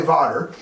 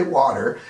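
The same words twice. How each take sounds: First: "water" with a v sound instead of w; water said as vater. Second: Said in the usual way. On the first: Real, not acted. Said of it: "Because I can't say water". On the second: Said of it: "I can only say water".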